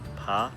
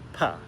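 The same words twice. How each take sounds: First: The pitch rises through the syllable. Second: The pitch falls sharply, like scolding. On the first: "a rising sound for the second tone" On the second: "the fourth tone, just sharp and scolding"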